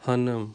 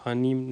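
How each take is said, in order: First: ہنم as ha-nım, with a dull uh before the m; dotless-i vowel. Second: ہانم as ha-neem, with a clear ee; i-vowel mispronunciation. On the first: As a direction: keep the second vowel of ہنم short and back, never ee. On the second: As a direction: put an ee before the m in ہانم. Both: Shown as a demonstration. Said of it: "ہانم نہیں کہیں گے".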